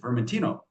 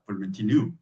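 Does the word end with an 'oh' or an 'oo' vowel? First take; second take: oh; oo. First: The word ends with an 'oh' vowel. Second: The word ends with an 'oo' vowel. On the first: This is the Italian form of the name. "which is Vermentino in Italian" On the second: This is the local island form of the name. "they call it, they put a U in there"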